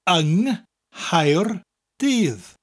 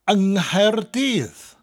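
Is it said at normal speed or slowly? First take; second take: slowly; normal speed. First: It is said slowly. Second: It is said at normal speed.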